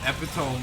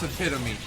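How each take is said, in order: First: The word ends sounding like 'tome'. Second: The word ends with an 'ee' sound. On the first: "when it says epitome in there? Because T O M E, that's tome" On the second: "I know it's epitome"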